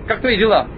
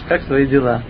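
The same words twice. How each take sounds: First: It is said in a shouting, irritated tone. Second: It is said in a calm, friendly tone. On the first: The writer seems rude and demanding. The speaker calls it wrong. "Он кричал, нервничал" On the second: The writer seems polite and caring. The speaker calls it right. "послушай, как я тебе расскажу это письмо"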